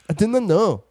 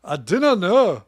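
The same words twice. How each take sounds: First: High, louder imitation of a Scottish "I didn't know"; imitating Scottish accent. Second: Slow, louder Scottish "I didn't know"; Scottish accent. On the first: Host mimicking her cohost's one Scottish accent line. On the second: Acted. Cohost doing his one Scottish accent line. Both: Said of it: "the only Scottish accent you do".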